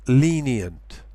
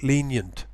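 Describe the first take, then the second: First: LENIENT as lee-nee-ent; three syllables. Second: LENIENT compressed to leen-yent; two syllables. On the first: Teacher shows full form, three-syllable LENIENT. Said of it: "that's three syllables". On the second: Teacher shows compression, two-syllable LENIENT. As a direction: squeeze the middle of LENIENT into a Y. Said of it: "which is two syllables". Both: Shown as a demonstration.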